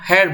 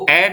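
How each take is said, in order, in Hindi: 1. यह h की आवाज़ से शुरू होता है। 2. यह h की आवाज़ के बिना शुरू होता है। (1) "हम हेयर बोलते हैं" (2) "इसको एयर नहीं बोलते"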